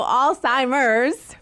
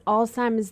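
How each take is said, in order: First: "Alzheimer's" slow and louder, the R fully sounded; R pronounced. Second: "Alzheimer's" with the R dropped, Boston style; Boston accent. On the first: Shown as a demonstration. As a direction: stretch out "Alzheimer's", saying the R clearly. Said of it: "we'll pronounce the R that time". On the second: Real, not acted. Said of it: "Did you hear the Boston accent come out".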